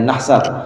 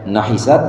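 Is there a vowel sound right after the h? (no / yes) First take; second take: no; yes. First: No vowel follows the h sound. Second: A short i vowel follows the h sound. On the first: "wa sukuniha" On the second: "bikasril ha"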